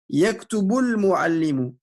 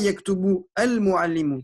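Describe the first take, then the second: First: The words run together and the article's vowel is dropped. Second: The words are separated and the article's vowel is pronounced. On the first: The speaker calls it right. "on va pas faire un temps d'arrêt" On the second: The speaker calls it wrong. "on dira pas"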